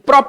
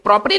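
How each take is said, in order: First: It is cut short with no final vowel. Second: It ends with an extra vowel syllable. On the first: The speaker calls it right. "लेकिन प्रॉप पढ़ेंगे इसको" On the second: The speaker calls it wrong. "प्रॉपरे लिखा हुआ है"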